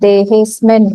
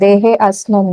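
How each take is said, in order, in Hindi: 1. शब्द बिना अतिरिक्त स्वर के जुड़े हैं। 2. शब्द अतिरिक्त स्वर के साथ अलग हैं। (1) "अवग्रह को नहीं प्रोनाउंस करना है, देहेस्मिन होगा" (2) "देहे अस्मिन नहीं"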